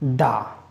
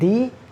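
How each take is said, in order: First: The word ends in a short 'uh' vowel. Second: The word ends in a long 'ee' vowel. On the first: It comes before a word starting with a consonant. "sometimes we pronounce it da" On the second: It comes before a word starting with a vowel. "sometimes we pronounce it di"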